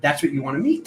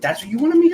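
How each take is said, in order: First: Said in the usual way. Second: Much higher and louder on the repeat; excited emphasis. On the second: Real, not acted. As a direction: lift the repeat into an ecstatic proclamation. Repeats phrase with build.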